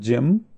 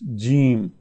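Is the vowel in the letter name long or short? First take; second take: short; long. First: The vowel is short. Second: The vowel is long. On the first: The speaker calls it wrong. "Not Jem" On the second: The speaker calls it right. "It's Jeem"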